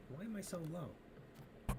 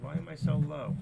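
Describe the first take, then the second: First: Said slow and much softer. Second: Same line pushed much louder. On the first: Streamer testing his mic level, slow and soft. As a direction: let it fall quiet and slow. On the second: Streamer testing his mic level, much louder. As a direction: punch it out loud for the mic. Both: Shown as a demonstration.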